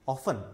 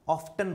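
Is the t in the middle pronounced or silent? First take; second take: silent; pronounced. First: The t in the middle is silent. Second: The t in the middle is pronounced. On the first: The speaker calls it right. "नहीं, ऑफन" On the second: The speaker calls it wrong. "कुछ बच्चे इसको ऑफ्टन बुलाते हैं, नहीं"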